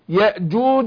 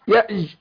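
First: The middle consonant is a hard closed stop. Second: The middle consonant is a spread hissing sound. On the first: The speaker calls it right. "خذ بالك الجيم" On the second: The speaker calls it wrong. "فما ينفعش اقول برضو الجيم يأش"

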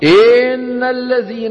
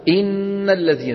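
First: The first vowel is stretched long. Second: The first vowel is short. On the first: The speaker calls it wrong. "لا يصح أن أقول إن الذين، مطينا الكسرة فتولد منها" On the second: The speaker calls it right. "الكسرة في الهمزة لها زمن"

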